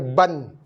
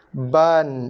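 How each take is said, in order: First: The vowel is clipped into one quick syllable. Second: The vowel is held a full beat before n. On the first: The speaker calls it wrong. "bukannya ban" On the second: The speaker calls it right. "Ban, bukannya ban"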